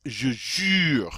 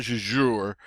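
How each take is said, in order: First: "je jure" slowly, U as rounded "ee"; French U. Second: "je jure" with "oo" in place of French U; English-style U. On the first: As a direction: pucker for the U in "jure". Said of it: "long E sound in English through rounded lips". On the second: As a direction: say "jure" like "zhoor". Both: Shown as a demonstration.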